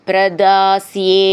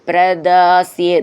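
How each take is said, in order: No difference in how they are said.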